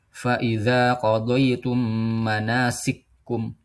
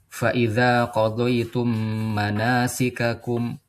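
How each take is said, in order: First: The two k sounds merge into one doubled k. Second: Both k sounds are pronounced separately with a vowel. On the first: This is a different reading tradition. "Di kafnya ini ditasdid" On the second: This is the usual reading tradition. "kalau di bacaan kita itu kan"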